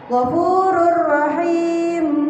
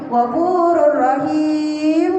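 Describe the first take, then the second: First: The last vowel is held briefly before m. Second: The last vowel is drawn out very long. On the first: The speaker calls it right. "Terdengar mimnya di akhir" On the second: The speaker calls it wrong. "Itu terlalu pan panjang"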